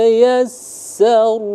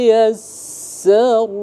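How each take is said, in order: The two takes are said the same way.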